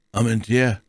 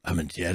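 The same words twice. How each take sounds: First: Word read aloud, raised in pitch. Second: Softer, musing repeat; pondering. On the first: A narrator's reading. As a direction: read the name out clearly. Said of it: "las Porthos". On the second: Acted. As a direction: say the name softly to yourself. Porthos repeats the unknown name, pondering.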